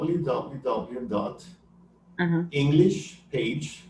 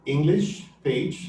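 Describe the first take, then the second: First: Slow, deliberate dictation; careful slow dictation of a web address; slow spelled-out dictation. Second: Slow, deliberate repetition; patient slow restatement of the address; slow repeat. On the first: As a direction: spell it out slowly for the listener. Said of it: "like it sounds, English Page". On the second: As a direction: say it again slowly so she gets it. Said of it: "English page dot com". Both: Shown as a demonstration.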